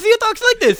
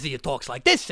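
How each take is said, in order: First: High, loud Italian-accented voice; talking like this. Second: Low Italian-accented voice; talking like this. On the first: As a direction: pitch the comic accent way up. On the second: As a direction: drop the comic accent down low. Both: Shown as a demonstration.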